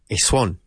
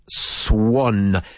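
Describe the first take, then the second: First: The final N is weak. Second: The final N is strongly marked. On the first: The speaker calls it wrong. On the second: The speaker calls it right. "With a really marked N at the end"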